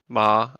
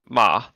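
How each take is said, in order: First: The pitch stays flat through the syllable. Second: The pitch drops through the syllable. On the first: "the flat tone" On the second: "the dropping tone"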